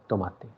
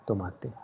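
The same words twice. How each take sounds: Both takes have the same delivery.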